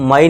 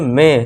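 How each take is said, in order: First: The vowel sounds like 'eye' in 'my'. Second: The vowel sounds like 'ay' in 'day'. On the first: The speaker calls it wrong. "इसे हम माई नहीं पढ़ेंगे।" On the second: The speaker calls it right. "इसे हम क्या पढ़ेंगे, मे"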